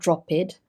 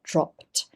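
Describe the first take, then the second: First: The ending is not a t sound. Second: The ending is a t sound. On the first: The speaker calls it wrong. "not dropped" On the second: The speaker calls it right. "It's a t sound"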